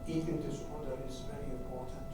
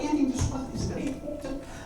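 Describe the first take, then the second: First: The voice is flat and monotonous. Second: The voice is lively and animated. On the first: The speaker is withdrawn and without emotion. "flat affect, monotonous voice" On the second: The speaker is outgoing and enthusiastic.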